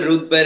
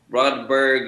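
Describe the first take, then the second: First: The surname is pronounced the Spanish way. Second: The surname is pronounced the English way. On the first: "En español se dice" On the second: "en inglés se dice"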